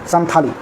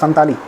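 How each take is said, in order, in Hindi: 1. बीच की t ध्वनि महाप्राण है। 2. बीच की t ध्वनि अल्पप्राण है। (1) "हिंदी में अ, था लिखा जाता था, संथाली" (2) "उनका उच्चारण होता है संताली"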